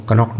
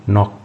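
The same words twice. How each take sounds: First: कनॉक्ट said with a sounded k, ka-knocked; wrong pronunciation demo. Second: नॉक said with a silent k, starting on n; correct pronunciation demo. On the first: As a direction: say कनॉक्ट with the silent k spoken aloud, as the mistake. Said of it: "इसको कनॉक्ट नहीं पढ़ते हैं". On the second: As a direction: say नॉक as "nok", k dropped, the correct way. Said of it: "नॉक पढ़ेंगे". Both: Shown as a demonstration.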